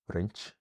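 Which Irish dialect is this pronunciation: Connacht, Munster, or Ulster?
Ulster. Pronounced in Ulster Irish with no vowel lengthening. "in Ulster you get"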